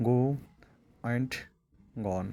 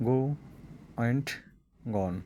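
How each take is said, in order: Both takes have the same delivery.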